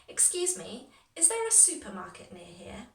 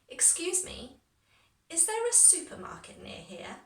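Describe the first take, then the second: First: It is said at a natural, confident pace. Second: It is said slowly and carefully. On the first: "in a really natural, confident way" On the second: "I'll start a little bit slower"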